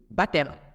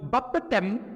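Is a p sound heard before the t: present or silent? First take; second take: silent; present. First: No p sound is heard before the t. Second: A p sound is heard before the t. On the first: The speaker calls it right. "On dit" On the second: The speaker calls it wrong. "on va pas dire"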